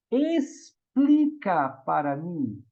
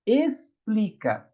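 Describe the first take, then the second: First: Explica stretched out slowly; stress on explica. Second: Explica said slowly, syllable by syllable; stress on explica. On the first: Teacher stressing explica to the congregation. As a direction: draw out explica. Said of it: "Complica é cheio de dobra". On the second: Teacher slowly spelling out Explica for the congregation. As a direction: draw out Explica to show the prefix. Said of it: "Toda vez que tem o prefixo es". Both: Shown as a demonstration.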